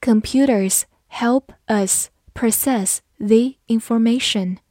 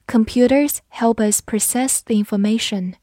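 First: Careful teacher pace with gaps between words; measured, spaced-out reading for learners; slow model reading. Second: Said in the usual way. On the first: Shown as a demonstration. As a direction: read slowly word by word. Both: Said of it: "好，慢慢来读".

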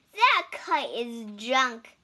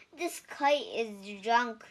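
First: Louder, scornful robin voice; robins scoffing. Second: Toad, glum. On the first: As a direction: sneer at the kite loudly, like a robin. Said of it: "said the robins". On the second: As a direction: say it as a let-down Toad. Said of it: "he said". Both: A narrator's reading.

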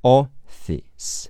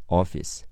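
First: "Office" split into slow separate sounds; sounded-out pronunciation. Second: Said in the usual way. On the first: Shown as a demonstration. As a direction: draw out "Office" syllable by syllable, higher. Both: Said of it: "S是字母C结尾的异步发音".

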